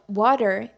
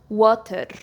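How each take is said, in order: First: The word is said in an American accent. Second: The word is said in a Scottish accent. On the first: "it's used in the American accent" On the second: "in the Scottish accent, people say water"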